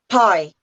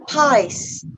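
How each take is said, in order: First: The word ends without any S sound. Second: The word ends with a loud, clear S. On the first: The speaker calls it wrong. "They just say pie" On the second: The speaker calls it right. "Make it make it nice and loud"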